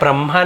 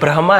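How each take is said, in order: First: The h sound comes after the m. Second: The h sound comes before the m. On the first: The speaker calls it wrong. "ब्रह्मा नहीं है" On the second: The speaker calls it right. "Actually ब्रह्मा है"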